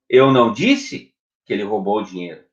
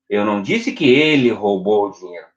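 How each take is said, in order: First: The stress falls on the word disse. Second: The stress falls on the word ele. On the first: Something else was said. "O que você disse?" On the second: Someone else stole it. "Quem roubou?"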